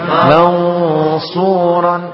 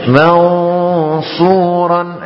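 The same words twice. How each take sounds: Both takes have the same delivery.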